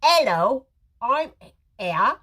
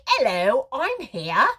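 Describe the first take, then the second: First: "Hello" lifted and louder, "here" rising; exact sing-song greeting. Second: Bright sing-song "Hello, I'm here"; cheery greeting. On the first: Host repeating the greeting for viewers to type, sing-song. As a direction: model the greeting for viewers to copy. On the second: Live-stream host demonstrating the greeting she wants, sing-song. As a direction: greet her like an old friend arriving. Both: Shown as a demonstration. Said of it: "say it exactly that way".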